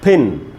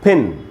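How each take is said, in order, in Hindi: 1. स्वर छोटी 'i' की आवाज़ है। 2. स्वर छोटी 'i' की आवाज़ है।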